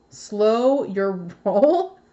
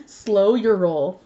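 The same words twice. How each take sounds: First: Slow your roll drawn out slowly with a questioning rise; bemused, slow reading of the card; puzzled read. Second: Slow your roll said slowly and firmly, savouring it; a chuckling, deliberate Slow your roll; amused repeat. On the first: Reading the card's phrase puzzled. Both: Real, not acted.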